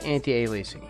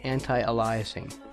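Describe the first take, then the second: First: The middle is said like the word 'alias'. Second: The middle is said like the name 'Elias'. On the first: The speaker calls it right. "It is anti it is anti-aliasing" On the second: The speaker calls it wrong. "that's not how you're supposed to say it"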